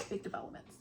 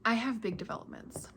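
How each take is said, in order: First: Whispered secret to the camera. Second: Said in the usual way. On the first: Shown as a demonstration. Vlogger teasing viewers with news, whispering. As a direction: lean in and breathe it with no voice.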